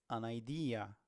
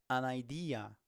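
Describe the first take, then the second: No difference in how they are said.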